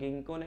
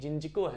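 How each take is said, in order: First: It begins with a hard g sound. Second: It begins with a j sound. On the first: The speaker calls it wrong. "गिंको नहीं" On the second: The speaker calls it right. "जिंजको है"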